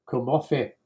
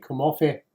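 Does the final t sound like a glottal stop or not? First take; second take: glottal stop; not glottal. First: The final t is a glottal stop. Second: The final t is not a glottal stop. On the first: The speaker calls it wrong. "if you do it like a glottal, you're sunk because it doesn't sound right" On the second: The speaker calls it right. "It's got to be"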